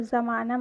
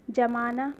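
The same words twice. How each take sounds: First: ज़माना with a z sound, meaning the world; ज़माना with nukta. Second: जमाना with a plain j sound, as in setting curd; जमाना without nukta. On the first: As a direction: say ज़माना with a buzzing z. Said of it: "ज़माना मतलब दुनिया". (ज़माना नुक्ते के साथ, 'ज़' की आवाज़ में) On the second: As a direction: say जमाना with a hard j. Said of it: "जमाना मतलब बर्फ़ या दही जमाना". (जमाना बिना नुक्ते के, 'ज' की आवाज़ में) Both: Shown as a demonstration.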